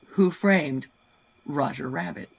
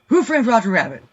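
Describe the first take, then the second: First: The phrase is said at a normal pace. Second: The phrase is said at a fast pace. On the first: "Want to try it again?" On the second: "Now say it faster"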